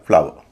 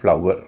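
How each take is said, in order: First: The vowel sounds like 'av' with a v-glide. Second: The vowel sounds like 'ow' with a w-glide. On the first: This is how Indian speakers say it. "आव हो रहा है" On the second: This is how British and American speakers say it. "British और अमेरिकी English में इन शब्दों का उच्चारण इस तरह होगा"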